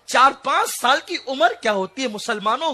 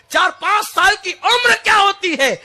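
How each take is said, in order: First: Said in the usual way. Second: Much higher and louder on the repeat; shouted repeat. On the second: Shown as a demonstration. Preacher repeating the question to the crowd, now shouted. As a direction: hammer the question home. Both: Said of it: "غور تو کرو".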